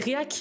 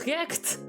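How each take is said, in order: First: The word ends without a final t sound. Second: The word ends with a clear final t sound. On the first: The speaker calls it wrong. "je disais réac au lieu de react" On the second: The speaker calls it right. "le T est primordial"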